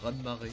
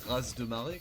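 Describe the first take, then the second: First: The final consonant of 'raz' is silent. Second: The final consonant of 'raz' is sounded.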